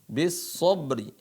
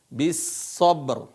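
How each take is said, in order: First: The word ends with a short i vowel. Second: The word ends on the r consonant. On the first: The reading continues without stopping. "Sebenarnya bis sabri ya" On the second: The reader stops at this word. "Kalau waqaf di sini, kalau berhenti"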